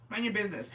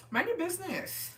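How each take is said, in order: First: Said in the usual way. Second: High, sing-song mind your business; mock scolding. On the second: Teen to snooping classmate, high mocking scold.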